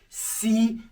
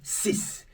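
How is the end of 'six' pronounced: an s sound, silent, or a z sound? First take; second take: z sound; s sound. First: The final consonant is a z sound, linked. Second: The final consonant is a clear s sound. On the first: A vowel-initial word follows. "begins with a vowel, that silent X now becomes Z" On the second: The number stands alone. "when pronouncing ten and six on their own, you sound this"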